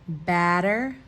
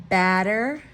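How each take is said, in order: The two takes are said the same way.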